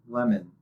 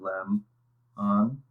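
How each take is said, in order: First: The two syllables run together as one word. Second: The two syllables are said apart with a break. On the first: "If we combine them and say it as a full word" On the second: "If we were to pronounce these syllables separately"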